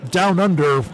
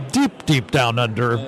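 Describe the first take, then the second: First: Said in the usual way. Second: "deep, deep" leaned on, dropping lower; playful stress on deep. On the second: Shown as a demonstration. Radio host teasing his guest, stressing "deep" lower. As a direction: dig into each "deep" as you sink lower.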